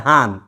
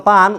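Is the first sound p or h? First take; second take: h; p. First: It starts with an h sound, Noakhali style. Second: It starts with a p sound.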